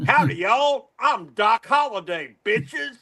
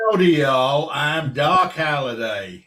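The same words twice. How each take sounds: First: Higher, swaggering Texan gunslinger; Texan accent, thrown out as a brash one-up; Texan accent done right. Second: Slow, drawn-out amateur Texan; showing off a shaky-quality Texan impression; put-on Texan accent. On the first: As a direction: correct their Texan with cocky, high-pitched gusto. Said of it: "this is how it should be". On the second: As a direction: have a go at a big Texan drawl. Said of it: "do my Texan accent for you". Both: Shown as a demonstration.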